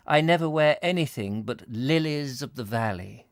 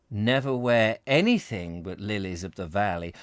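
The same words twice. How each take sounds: First: Put-on girl's letter voice. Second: Startled musing repetition. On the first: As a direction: read it as the girl writes it. Girl's letter, then his repetition. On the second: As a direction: repeat it, dwelling on anything. Bavarius repeats it to himself. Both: A narrator's reading.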